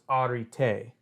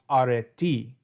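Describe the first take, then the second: First: It uses the ancient Greek vowel pronunciation. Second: It uses the modern Greek vowel pronunciation. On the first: "in ancient Greek, the e's are flipped, so it's arete" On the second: "in modern Greek, it is pronounced areti"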